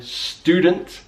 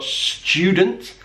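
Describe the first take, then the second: First: "student" said stoo-dent, no y; American "student" with plain t and oo; yod dropping. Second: First "student" said s-chew-dent; British "student" with ch after s; yod coalescence. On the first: Teacher giving learners more examples, American pronunciation. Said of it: "in American English". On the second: Teacher giving learners more examples, British pronunciation. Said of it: "we call that yod coalescence". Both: Shown as a demonstration.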